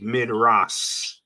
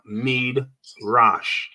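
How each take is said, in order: First: The final sound is a plain s. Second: The final sound is sh. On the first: The final letter is read as sin. "it would be Midras if the dot was over here" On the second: The final letter is read as shin. "to pronounce this last letter as sh, the S H sound"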